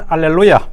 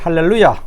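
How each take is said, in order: First: The word begins with a vowel sound. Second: The word begins with an h sound. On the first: "스페니쉬는 알렐루야" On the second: "H가 앞에 붙어서"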